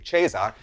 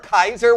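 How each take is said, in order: First: The word begins with a soft consonant sound. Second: The word begins with a hard K sound. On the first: This is the church pronunciation. "not the ecclesiastical, which would be Caesar" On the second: This is the original classical pronunciation. "which is the original Latin pronunciation"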